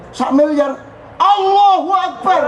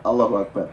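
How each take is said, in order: First: Much higher and louder, drawn out slowly in amazement; awed exclamation. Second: Said in the usual way. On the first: Shown as a demonstration. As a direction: cry out Allahu akbar in stunned wonder. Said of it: "Jadi Allahu akbar judulnya adalah takjub".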